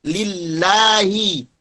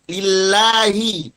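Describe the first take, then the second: The two takes are said the same way.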